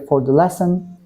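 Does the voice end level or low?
level. The phrase ends on a level pitch. The speaker calls it wrong. "I hear for the lesson. That's wrong"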